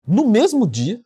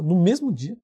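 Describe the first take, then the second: First: "mesmo" said higher and louder, amazed; stress on mesmo. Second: Said in the usual way. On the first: Real, not acted. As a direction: lean hard on "mesmo" in disbelief. (ênfase em "mesmo", mais alto e agudo) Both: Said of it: "é, incrível".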